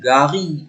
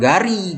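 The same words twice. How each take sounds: First: The R is made deep in the throat. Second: The R is made at the front of the mouth. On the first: The speaker calls it right. "R-nya dalam kerongkongan" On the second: The speaker calls it wrong. "bukan gari"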